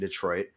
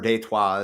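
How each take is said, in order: First: The name is said with an English pronunciation. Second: The name is said with a French pronunciation. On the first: This is the usual present-day name. "but whatever, it's fucking Detroit" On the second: This is how the early settlers said it. "or Detroit as they pronounced it"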